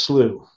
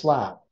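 First: The word is said the non-British way. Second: The word is said the British way. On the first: "it's pronounced slew" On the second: "That's actually the British pronunciation"

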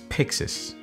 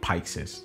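First: The first syllable sounds like 'pix' in Pixar. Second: The first syllable does not sound like 'pix'. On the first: The speaker calls it right. "it is pronounced as Pyxis, like Pixar" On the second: The speaker calls it wrong. "not Pyxis, like the way I called it"

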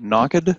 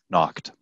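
First: The ending is said as an extra syllable. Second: The ending joins the word with no extra syllable. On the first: The speaker calls it wrong. "Not knocked" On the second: The speaker calls it right. "try and pronounce it without saying the E"

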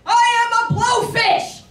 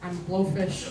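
First: It is said at a very loud volume. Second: It is said at a quiet volume.

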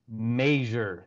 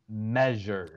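First: It is said with a Midwestern pronunciation. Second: It is said with a standard pronunciation. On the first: "I hear somebody from the Midwest, they say measure" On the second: "They do not say measure"

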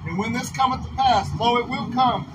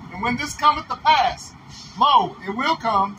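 First: It is read at a faster pace. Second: It is read at a slower pace.

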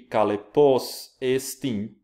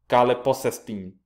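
First: The two words are said as separate words. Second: The two words are run together in one breath.

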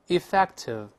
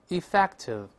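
The two takes are said the same way.

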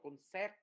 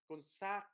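First: The stressed vowel sounds like 'e'. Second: The stressed vowel sounds like a short 'a'. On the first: The speaker calls it wrong. "chứ không đọc là concept nha, không đọc vần e" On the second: The speaker calls it right. "không đọc vần e nữa mà vần a"

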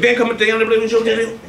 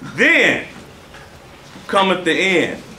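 First: It is said quickly. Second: It is said slowly.

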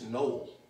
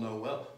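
First: The word is said with an English pronunciation. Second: The word is said with a French pronunciation. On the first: "the English way" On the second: "it's Noel, which is French"

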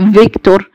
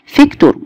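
First: The first sound is a heavy v. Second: The first sound is a light f. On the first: The speaker calls it wrong. "مش زي فيكتور" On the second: The speaker calls it right. "خفيف مش تقيل"

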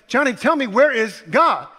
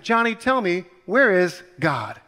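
First: It is asked in a slightly irritated voice. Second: It is asked in a calm voice.

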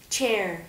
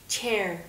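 The two takes are said the same way.

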